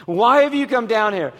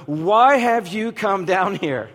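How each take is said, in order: First: Sharper retold question. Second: Said in the usual way. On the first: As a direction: let the tone turn on him. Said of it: "So all of a sudden the tone changes".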